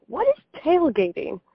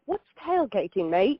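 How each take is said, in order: First: Said in the usual way. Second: A light, mock Australian accent; imitating her Aussie friend in a light Australian accent. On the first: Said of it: "she was like". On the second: Aussie friend asking about tailgating, in a lightly mocked Australian accent. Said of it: "in my best accent".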